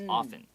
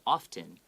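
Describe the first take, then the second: First: The t sound is left silent. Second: The t sound is pronounced. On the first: "the more natural way of pronouncing it" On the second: "that's okay as well"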